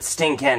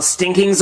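First: "stinking" ending in a clear "Ken"; pun pronunciation. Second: Said in the usual way. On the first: Shown as a demonstration. Explaining his pun on Ken, "stinking" said as sting-Ken. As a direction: say "stinking" as sting-KEN, full vowel at the end. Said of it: "Well, stinking's a word". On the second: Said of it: "but stinking is not".

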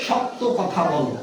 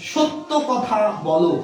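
First: সত্য slowly, with open "aw": "shawt-to"; mispronunciation shown. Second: সত্য slowly, with closed "o": "shot-to"; correct pronunciation. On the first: (সত্য ধীরে, প্রথম স্বর খোলা অ) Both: Shown as a demonstration.

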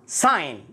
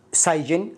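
First: ساين said as sign with a silent g; correct pronunciation. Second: سايجن with the g sounded, sig-n; mispronounced sign; wrong pronunciation. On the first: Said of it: "الجي لا ينطق". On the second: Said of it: "وليست سايجن". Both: Shown as a demonstration.

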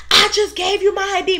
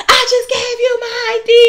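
First: High, angry customer yelling; imitating a shrill rude customer; mock screaming customer. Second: High and louder, fed-up yell; imitating an irate shopper's shout; angry customer yell. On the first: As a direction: throw her complaint back, way up high. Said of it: "Mind you, she's screaming". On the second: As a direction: bark the complaint like an irate shopper. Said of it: "She's like".

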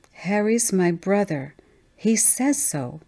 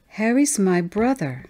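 First: Put-on slow, stubborn little-girl voice; higher child voice, slow and insistent; child insisting. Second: Put-on higher little-girl voice, matter-of-fact; lightly voiced young girl, sure of it; child declaring. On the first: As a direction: drag it out, refusing to budge. Child insists after being contradicted. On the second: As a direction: state it simply as a small child. Child answers who Harry is.

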